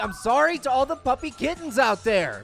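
The apology sounds sincere and emphatic.

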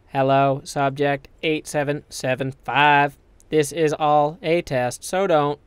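It is read in a put-on character voice. The speaker calls it wrong. "Here's a GLaDOS one"

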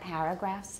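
The first vowel sounds like the vowel in 'cat'. The speaker calls it wrong. "not paragraphs"

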